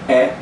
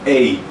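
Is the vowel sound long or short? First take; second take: short; long. First: The vowel is said short and clipped. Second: The vowel is said long and gliding. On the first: The spelled vowel is a short one. "eu sei que é curta" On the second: The spelled vowel is a long one. "eu sei que é longa"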